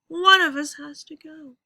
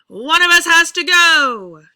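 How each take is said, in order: First: It gets softer toward the end. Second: It gets louder toward the end.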